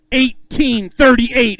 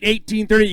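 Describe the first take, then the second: First: "Eighteen thirty-eight" stretched slow for the crowd; slow announcer reveal of "Eighteen thirty-eight"; drawn-out weight call. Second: Said in the usual way. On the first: Acted. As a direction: draw the number out like a reveal.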